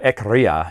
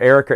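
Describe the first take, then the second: First: The name is said as Ekria, with K before R. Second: The name is said as Erica, with R before K. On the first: The speaker calls it right. "it's Ekria" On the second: The speaker calls it wrong. "for the longest I mispronounced that"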